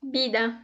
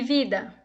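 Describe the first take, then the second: First: "vida" with the V said as B; Spanish-style "vida", starting on a B sound; Spanish pronunciation. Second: Said in the usual way. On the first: Shown as a demonstration. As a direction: say "vida" as "bida", softly. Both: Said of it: "A pronúncia seria".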